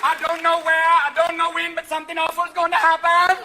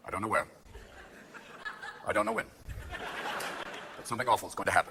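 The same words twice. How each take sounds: First: High, loud psychic proclamation; loud, high mock Jamaican fortune-teller; Miss Cleo. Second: Low, quiet official statement; measured briefing, softly, with long pauses; Rumsfeld. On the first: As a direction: belt it out as a TV psychic's prophecy. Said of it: "are you working with Miss Cleo?". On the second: Acted. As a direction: deliver a hushed, halting warning. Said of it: "Rumsfeld comes out and goes".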